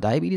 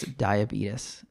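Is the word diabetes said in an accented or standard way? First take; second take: standard; accented. First: The word is said with a standard pronunciation. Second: The word is said with an imitated accented pronunciation. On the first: The speaker calls it right. "she like said it perfectly when she was like introducing herself" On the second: The speaker calls it wrong. "I think it was just her accent"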